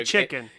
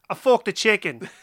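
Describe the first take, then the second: First: It is said without a British accent. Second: It is said in a British accent.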